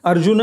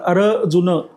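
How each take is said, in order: First: The name is said as one smooth word. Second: The name is split into two separate parts.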